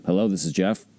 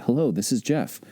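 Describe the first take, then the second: First: Said in the usual way. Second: Warm. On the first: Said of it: "what is the tone and the inflection". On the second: Shown as a demonstration. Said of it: "do you sound warm".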